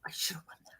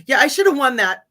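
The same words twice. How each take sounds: First: Whispered under the breath, unvoiced; a mock-bitter whispered repeat; whispered aside. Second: Mock boast. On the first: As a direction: mutter it as a secret grudge, barely audible. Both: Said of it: "No, I'm just kidding".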